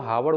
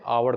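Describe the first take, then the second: First: The word starts with a spoken h sound. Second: The word starts with a vowel, no h. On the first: The speaker calls it wrong. "हावड़ उच्चारण नहीं करते हैं" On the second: The speaker calls it right. "आवर करते हैं"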